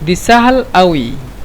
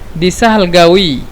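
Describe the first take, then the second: First: The last word begins with a glottal stop. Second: The last word begins with a q sound. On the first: "لو نحن نستخدم قاف يعني همزة نتكلم أوي" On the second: "لو نتكلم بالقاف"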